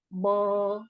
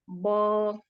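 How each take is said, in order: No difference in how they are said.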